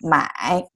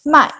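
First: The pitch dips down and then rises. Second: The pitch falls sharply from high to low. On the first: It means to buy. "it's the third tone. Third tone is go down and up" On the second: It means to sell. "that's became the fourth tone. 卖, go down"

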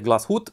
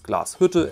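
First: The final e is silent. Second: The final e is pronounced. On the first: The speaker calls it wrong. "Many people say Glashütte" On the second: The speaker calls it right. "the E at the end of the word is spelled and there's an umlaut"

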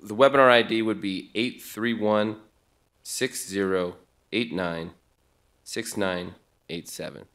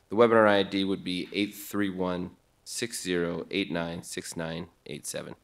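First: The number is read at a slower pace. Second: The number is read at a faster pace.

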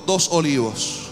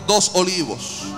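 First: The phrase is said fairly loudly. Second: The phrase is said even more loudly. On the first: "Diga fuerte conmigo" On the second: "Más fuerte"

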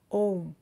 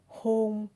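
First: It begins with a vowel and ends in m. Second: It begins with an h sound and ends in n. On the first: "or ôm"

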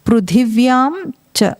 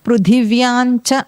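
First: The final nasal is fully pronounced before 'cha'. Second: The final nasal blends into 'cha'. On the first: The speaker calls it right. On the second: The speaker calls it wrong.

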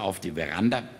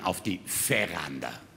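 First: The V in Veranda sounds like a W. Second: The V in Veranda sounds like an F. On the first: The speaker calls it wrong. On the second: The speaker calls it right.

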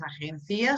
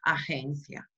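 First: The stress falls on the syllable ci. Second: The stress falls on the syllable gen. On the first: The speaker calls it wrong. "no es agencia" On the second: The speaker calls it right. "sino que agencia"

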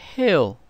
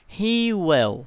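First: It is said as one contracted syllable. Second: It is said as two full words.

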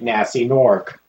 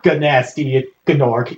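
First: The name starts with an N sound. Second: The name starts with a hard G sound. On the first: The speaker calls it right. "you don't pronounce the G" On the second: The speaker calls it wrong. "It's not Ganasty Gnork"

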